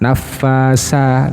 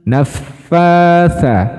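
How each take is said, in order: First: The last consonant is a plain s sound. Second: The last consonant is a soft th sound. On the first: The speaker calls it wrong. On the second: The speaker calls it right.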